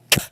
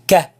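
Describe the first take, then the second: First: The K is released with a coughed puff of air. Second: The K is released cleanly without a puff of air. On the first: The speaker calls it wrong. "but don't cough it. Don't say k" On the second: The speaker calls it right. "a little bit out, ka, ka, like the K sound"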